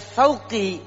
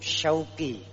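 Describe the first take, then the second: First: The name begins with a th sound. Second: The name begins with an sh sound. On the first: The name means thorn. The speaker calls it wrong. "menggunakan huruf sa, maka jadinya artinya duri" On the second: The name means longing. The speaker calls it right. "menggunakan huruf shin yang punya arti kerinduan"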